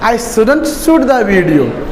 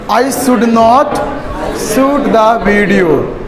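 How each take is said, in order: First: Should not is contracted into one word. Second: Should not is said as two full words.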